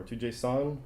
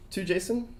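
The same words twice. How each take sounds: First: "JSON" with an open vowel in the last syllable; "JSON" said as jay-sawn. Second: "JSON" with an unstressed last syllable; "JSON" said like Jason. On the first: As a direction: say JSON with a full "sawn" ending. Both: Shown as a demonstration. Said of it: "however you wanna say it".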